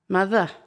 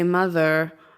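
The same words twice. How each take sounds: First: The final r sound is dropped. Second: The final r sound is clearly pronounced. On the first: "But in British English, it's more just uh, mother" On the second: "They would say mother, ... There's an er at the end"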